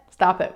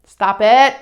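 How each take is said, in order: First: Said in the usual way. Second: Loud, firm order to cut it out; firm command. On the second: Acted. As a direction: put a sudden, forceful stop to it. Cutting off the urge to correct.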